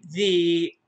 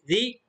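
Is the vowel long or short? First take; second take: long; short. First: The vowel is long. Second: The vowel is short. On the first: "صوت طويل" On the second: "صوت قصير"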